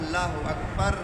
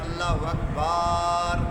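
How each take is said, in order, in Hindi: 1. इस वाक्यांश में कोई ध्वनि लंबी नहीं खींची जाती। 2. अकबर का ba अक्षर लंबा खींचा जाता है। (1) "पूरा होना चाहिए" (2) "अकबर की बा को खींच दिया"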